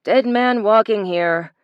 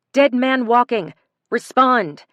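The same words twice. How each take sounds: First: Slow, distorted voice over the radio; crackly radio call, drawn out; muffled radio voice. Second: Calling loudly into the radio; urgent call. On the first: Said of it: "distorted and echoing as it came from two of their radios". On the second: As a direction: demand an answer, loudly. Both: A narrator's reading.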